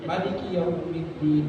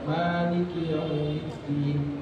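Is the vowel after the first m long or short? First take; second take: short; long. First: The vowel after the m is short. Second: The vowel after the m is long. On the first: "miminya pendek"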